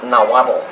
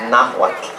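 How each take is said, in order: First: Nahuatl said loosely as na-WA-bo; wrong pronunciation. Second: Nahuatl as NA-wat, two syllables; correct pronunciation. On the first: Teacher shows the mistaken Nahuatl, na-WA-bo. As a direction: turn the end of Nahuatl into a full extra syllable. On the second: Teacher corrects Nahuatl, two syllables with a stopped end. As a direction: end Nahuatl on a short tl stop. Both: Shown as a demonstration. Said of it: "not Nahuatl".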